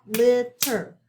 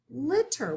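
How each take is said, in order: First: LITTER split into two beats, LIT and TER, both punched louder; clapped-out syllables. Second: Said in the usual way. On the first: Shown as a demonstration. Teacher clapping out two syllables, LITTER broken into loud separate beats. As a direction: say LITTER syllable by syllable, a small gap between. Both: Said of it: "so clap it out".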